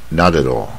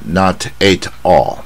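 First: The three words are run together. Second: The three words are said separately. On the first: The speaker calls it right. "比较习惯老外习惯这样念" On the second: The speaker calls it wrong. "尽量不要念成not at all"

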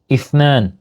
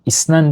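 First: The middle consonant is a lisped th sound. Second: The middle consonant is a plain s sound. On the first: The speaker calls it right. "ben peltek olmadığımı kabul etmem" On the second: The speaker calls it wrong. "İsnen diye bir sayı yok"

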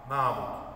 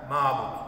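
Both takes have the same delivery.

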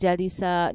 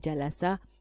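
First: The middle syllable has the vowel i. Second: The middle syllable has the vowel a. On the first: The speaker calls it wrong. "I will never say jalisa" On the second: The speaker calls it right. "I must always and forever say jalasa"

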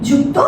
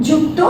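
The two takes are said the same way.

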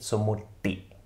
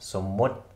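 First: An extra i vowel follows the final t. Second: The word ends cleanly on the t sound. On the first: The speaker calls it wrong. "Also nicht somuti" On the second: The speaker calls it right. "sondern somut"

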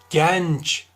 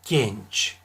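First: The E vowel is pronounced open. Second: The E vowel is pronounced closed. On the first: The speaker calls it wrong. "genç değil" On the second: The speaker calls it right. "E harfleri kapalı telaffuz edilir"

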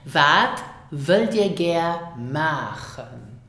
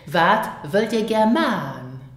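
First: It is said carefully, word by word. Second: It is said casually, words run together.

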